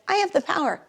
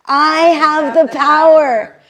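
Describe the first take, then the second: First: Quick, offhand, not felt; thinking with your head. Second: Slow and much louder, every word landed; felt from the heart. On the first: Teacher showing the class the empty version, offhand. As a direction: toss it off as a head thought. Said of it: "rather than thinking with your head". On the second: Teacher modelling the affirmation for the class, slow and powerful. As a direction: let it sink in and declare it fully. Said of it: "Let it sink in your heart". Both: Shown as a demonstration.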